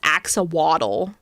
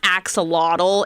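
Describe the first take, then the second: First: The word ends with a 'waddle' sound. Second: The word ends with a 'lottle' sound. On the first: "it's axawaddle, according to my nieces" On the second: "it's not axolotl"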